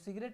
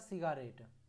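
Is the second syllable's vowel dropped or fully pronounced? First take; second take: dropped; full. First: The second syllable's vowel is dropped. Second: The second syllable is said with a full vowel. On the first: This is how it is normally spoken. "तो सिगरेट ही हम बोलते हैं" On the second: This is a way to remember the spelling. "तो मैंने तो ऐसा याद रख लिया था"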